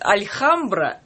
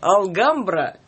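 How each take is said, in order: First: A soft L is followed by a KH sound. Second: A hard L is followed by a G sound. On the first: "некоторые читают альхамбра" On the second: "некоторые читают алгамбра"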